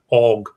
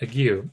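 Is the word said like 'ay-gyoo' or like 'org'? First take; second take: org; ay-gyoo. First: The word is said like 'org'. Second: The word is said like 'ay-gyoo'. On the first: The speaker calls it right. "We're going to say it like that. It's better" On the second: The speaker calls it wrong. "I've always pronounced that ague"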